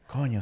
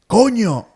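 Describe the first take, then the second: First: The word is said with a calm voice. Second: The word is said with a raised voice. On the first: It means come on. "it's more like come on" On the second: It is a rude word that cannot be repeated. "the tone of voice raise expresses a little bit more of a different"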